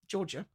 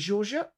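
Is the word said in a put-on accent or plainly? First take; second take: plain; accented. First: The word is said plainly with no accent. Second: The word is said with an odd, put-on accent. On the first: The speaker calls it right. "There's no accent required for that one" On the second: The speaker calls it wrong. "Why did I say it like that? / That's an accent there"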